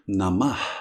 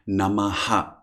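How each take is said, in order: First: The word ends in a soft breath only. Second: The final breath is followed by an echoed vowel. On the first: This is the original way. The speaker calls it right. "the original way of pronouncing this is in fact just Namah. So it is a very soft sound" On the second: This is the common modern way. The speaker calls it wrong. "we say nowadays in modern pronunciation of Sanskrit, we often say Namaha"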